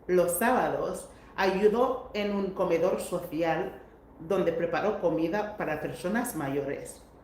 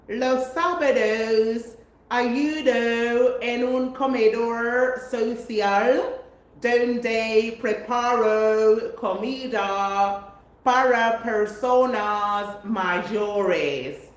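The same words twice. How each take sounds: First: It is read with a native-like Spanish accent. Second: It is read with a heavy English accent. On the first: The speaker calls it right. "this is how I read it" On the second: The speaker calls it wrong. "saying with your English accent"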